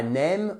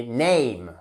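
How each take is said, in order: First: NAME said like French "nème", one plain E; wrong pure vowel. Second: NAME with a gliding ey, neym; diphthong A. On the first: Teacher showing learners the French mistake, nème. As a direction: say NAME as nem, no glide. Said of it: "On dit pas name". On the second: Teacher correcting learners on name, clear diphthong. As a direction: glide the vowel of NAME from e to i. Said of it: "c'est notre diphtongue ici". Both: Shown as a demonstration.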